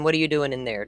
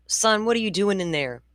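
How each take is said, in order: First: Said in the usual way. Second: Higher, calling down the hall; mother calling to her son down the hall. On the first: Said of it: "hear a thud and say". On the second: Retold or imitated. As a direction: call out to the kid in the other room. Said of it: "I'm gonna yell out".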